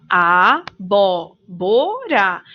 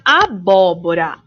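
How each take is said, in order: First: "Abóbora" very slow, split as a-bó-bo-ra; syllable by syllable. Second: Said in the usual way. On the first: Shown as a demonstration. Teacher dividing the word for children, slow syllables in "Abóbora". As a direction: stretch each syllable of "Abóbora" separately. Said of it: "o bó". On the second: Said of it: "Aqui vemos a palavra abóbora".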